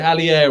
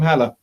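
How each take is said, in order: First: The name is said as Hallier, with a y-glide. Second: The name is said as plain Haller. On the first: This is how the name is actually pronounced. The speaker calls it right. "it's that Halli, Hallier or some, something like that" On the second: This is how a German name would be read. The speaker calls it wrong. "If he was German, yes, we call him Haller definitely"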